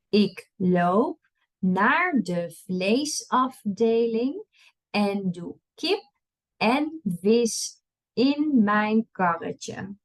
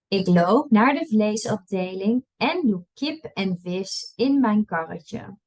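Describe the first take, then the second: First: It is read at a slow pace. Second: It is read at a fast pace. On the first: "I'll read it slow first" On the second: "and then I'll read it fast"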